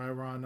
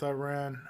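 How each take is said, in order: First: "Iran" with an open AH, rhyming with "on"; Iran ending in "rahn". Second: "Iran" with a short flat A, rhyming with "man"; Iran ending in "ran". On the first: Host offering the other pronunciation, "Iran" said eye-RAHN. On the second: Host unsure of the country's name, "Iran" said eye-RAN. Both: Real, not acted. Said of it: "I don't know if I'm pronouncing it".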